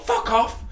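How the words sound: It is said aggressively.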